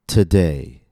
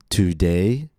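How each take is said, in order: First: The first vowel is a short, reduced schwa. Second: The first vowel is a full, clear vowel. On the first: The speaker calls it right. "but today" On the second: The speaker calls it wrong. "It's not pronounced today"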